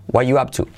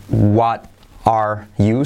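First: "what you up to" linked as "wa yu ap tu"; reduced form. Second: "what are you" slowly, word by word, with the T sounded; full form. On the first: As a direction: glide from "what" into "you" without a T. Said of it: "sino what you up to". ("what you up to" unido, sin la T) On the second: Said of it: "No es what are you". ("what are you" completo, palabra por palabra) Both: Shown as a demonstration.

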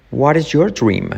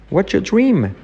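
First: "What is your" in separate words, R sounded in "your"; full form. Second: "What's your" fused as "watcha", high-pitched; contracted, R dropped. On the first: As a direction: pronounce "What is your dream" fully. Full form against contracted model. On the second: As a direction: link "What's your dream" and lose the R in "your". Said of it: "la R de your desaparece". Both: Shown as a demonstration.

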